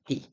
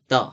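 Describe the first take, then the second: First: The word ends with an 'ee' vowel sound. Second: The word ends with an 'uh' vowel sound. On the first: The next word starts with a vowel sound. "보통이면 앞에 뒤에 모음으로 발음이 될 때는 the라고 해요" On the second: The next word starts with a consonant sound. "근데 자음이 왔을 때는 the, the라고 해요"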